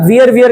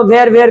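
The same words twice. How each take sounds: First: वियर said with a long ee vowel, like veer; wear as veer. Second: वेयर said with an open ay vowel, like vair; wear as vair. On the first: Teacher showing the वियर variant to students. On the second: Teacher showing the वेयर variant to students. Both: Shown as a demonstration. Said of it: "जगह के हिसाब से अलग अलग pronunciation होते हैं".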